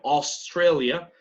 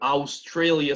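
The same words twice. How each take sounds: First: The first vowel is a single 'o'-like sound. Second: The first vowel is a Spanish-like 'a-u' glide. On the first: The speaker calls it right. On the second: The speaker calls it wrong. "no se dice"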